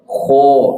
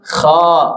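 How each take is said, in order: First: The vowel is a rounded o with pursed lips. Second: The vowel is an open a with mouth wide. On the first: The speaker calls it wrong. "Seseorang ngaosna kieu ya ... ketika saya baca dengan monyong" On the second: The speaker calls it right. "pasti rumus mangap. ... Mangap Bu ya, buka mulut dengan sempurna"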